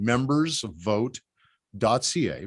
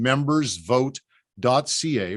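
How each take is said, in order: First: Each word stretched out for note-taking; very slow dictation. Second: Spelling out a web address slowly; slow dictation. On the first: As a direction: dictate it word by word so nobody misses it. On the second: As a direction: say it so they can write it down. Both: Shown as a demonstration. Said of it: "Write that down".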